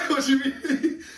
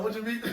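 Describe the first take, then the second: First: Repeating it through laughter, pitched up; can barely get the words out for giggling; a giggly retold comeback; laughing. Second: Said in the usual way. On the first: Same reply repeated while laughing.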